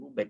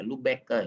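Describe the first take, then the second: First: The name ends without a final extra syllable. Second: The name ends with a final extra syllable. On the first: The speaker calls it wrong. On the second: The speaker calls it right.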